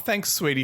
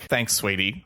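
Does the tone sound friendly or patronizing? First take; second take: friendly; patronizing. First: It is said in a warm, sincere tone. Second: It is said in a condescending, passive-aggressive tone. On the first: The speaker is genuinely grateful. "if the person's just saying" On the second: The speaker is belittling the listener. "Whereas if they're saying it like"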